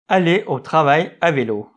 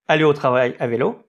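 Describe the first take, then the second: First: The voice stays level or falls at the end. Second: The voice rises at the end like a question. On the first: It is read as a plain statement. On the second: It is read as a question.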